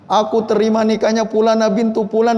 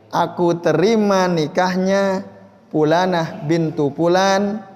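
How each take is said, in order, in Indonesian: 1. Itu diucapkan dengan cepat, tergesa-gesa. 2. Itu diucapkan dengan tempo yang santai.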